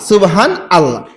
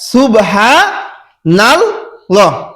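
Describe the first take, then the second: First: Subhan and Allah are said as separate words. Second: The n runs straight into Allah as nallah. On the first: The speaker calls it wrong. "হান বলে হান, তারপরে আল্লাহ" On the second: The speaker calls it right. "আসলে শব্দটা হচ্ছে এরকম উচ্চারণ"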